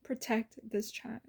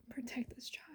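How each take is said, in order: First: Soft plea. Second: Fading whispered repeat; whispered plea. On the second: Repeating the nightly prayer, whispered. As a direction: let the prayer die into a whisper. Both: Retold or imitated. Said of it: "I'd pray every single night".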